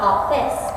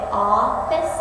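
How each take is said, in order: First: The stress is on the second syllable. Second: The stress is on the first syllable. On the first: The speaker calls it wrong. "not office" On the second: The speaker calls it right. "you say office ... So accent, unaccent"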